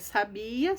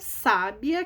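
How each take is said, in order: First: The stress is on the middle syllable. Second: The stress is on the first syllable. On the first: "sabia não leva acento" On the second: "sábia leva acento no sa"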